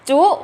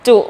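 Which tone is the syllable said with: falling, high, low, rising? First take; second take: high; low. First: The syllable is said with a high tone. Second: The syllable is said with a low tone. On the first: "ไม้ตรี" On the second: "คำว่าจุจุเป็นเสียงวรรณยุกต์อะไรคะ...เป็นเสียงเอก"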